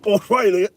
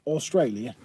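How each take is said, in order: First: Australia! hammed up, much higher and louder in a put-on Aussie accent; mock Australian accent. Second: Said in the usual way. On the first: Teasing a viewer about home, hammed-up Australian accent. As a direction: belt Australia! like a cartoon Aussie. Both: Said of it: "that was probably a really bad accent".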